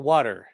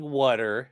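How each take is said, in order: First: "water" as the speaker's intended pronunciation; water said own way. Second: "water" as the pronunciation being denied; water said the rejected way. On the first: Correcting the chat, "water" drawn out the intended way. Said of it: "I'm saying water". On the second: Denying an accent to the chat, "water" mispronounced. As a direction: say "water" the way others mishear it. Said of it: "I'm not saying water". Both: Shown as a demonstration.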